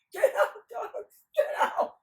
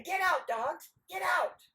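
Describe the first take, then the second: First: Very high, loud yelling; hammed-up high-pitched shout; squealed command. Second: Raised, higher-pitched order; forceful demonstration of a command; firm command. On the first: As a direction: shriek at the dogs like a silly simpleton. Nasrudin copies the command shrieking. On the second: Acted. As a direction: shoo the dogs loudly. Dog owners demonstrate the command.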